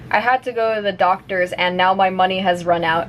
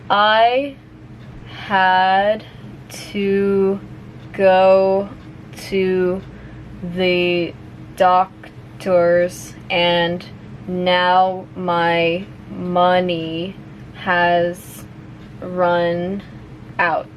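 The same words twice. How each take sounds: First: The sentence is spoken fast, at natural speed. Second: The sentence is spoken slowly. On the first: "one more time at normal speed" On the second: "I'll say it slowly first"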